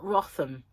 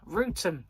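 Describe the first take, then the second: First: The first vowel is short, as in 'rot'. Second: The first vowel is long, as in 'root'. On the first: This is how outsiders read the spelling. The speaker calls it wrong. "is not Rotham" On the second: This is how local people say it. The speaker calls it right. "It's Rootham"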